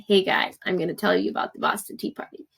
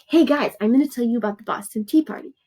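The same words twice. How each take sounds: First: Said in the usual way. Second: Quick, lively casual announcer to friends; mock chatty introduction, fast and bright; chatty hey-guys voice. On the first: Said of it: "But you don't wanna write". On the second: Shown as a demonstration. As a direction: play a breezy vlogger greeting the class. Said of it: "So you're like".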